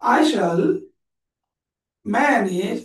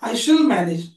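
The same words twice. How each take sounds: First: The words are said separately, not linked. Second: The words are run smoothly together. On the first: The speaker calls it wrong. "असं नाही" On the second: The speaker calls it right. "एकत्र"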